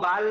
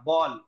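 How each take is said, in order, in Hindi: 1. स्वर खुला हुआ है, होंठ गोल नहीं हैं। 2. स्वर भरा हुआ है, होंठ गोल हैं। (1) "इसको बाल नहीं बोलते" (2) "हमारे होंठ गोल हो रहे और मुंह भर जा रहा"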